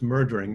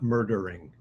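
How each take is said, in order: First: The middle vowel is dropped, giving two syllables. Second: All three syllables are fully pronounced. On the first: The speaker calls it right. "Just make sure it's murdering, There's an elision there" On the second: The speaker calls it wrong. "not murdering"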